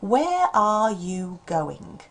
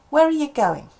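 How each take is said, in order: First: "Are" and "you" have full vowels. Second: "Are" and "you" have weak schwa vowels. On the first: "learners are going to expect to hear" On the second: "we haven't got are, we've got uh"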